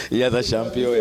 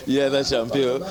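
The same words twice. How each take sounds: The two takes are said the same way.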